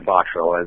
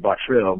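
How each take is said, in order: First: The name is pronounced the English way. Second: The name is pronounced the French way. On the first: "we say Bottrell as Westerners" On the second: "the French pronunciation would be Bottrell"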